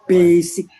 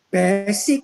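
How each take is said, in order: First: The first vowel sounds like the one in 'base'. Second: The first vowel sounds like the one in 'best'. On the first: The speaker calls it right. "Harusnya basic" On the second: The speaker calls it wrong. "bukan basic, salah"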